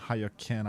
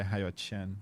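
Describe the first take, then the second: First: The last name starts with a k sound. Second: The last name starts with a ch sound. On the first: The speaker calls it wrong. "instead of saying Hayo Ken" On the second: The speaker calls it right. "Q is pronounced similarly to C H"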